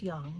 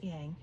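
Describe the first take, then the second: First: "yang" with an open ah, like yahng; correct pronunciation. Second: "yang" with a flat English a, as in hang; mispronunciation. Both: Shown as a demonstration. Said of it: "It's pronounced yang, not yang".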